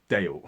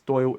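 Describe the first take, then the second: First: The vowel sounds like 'ay' in day. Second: The vowel sounds like 'oy' in boy. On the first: The speaker calls it wrong. "I say it as Dale, and I knew I was mispronouncing it" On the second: The speaker calls it right. "I will never make that mistake again. It's Doyle"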